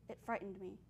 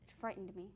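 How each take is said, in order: The two takes are said the same way.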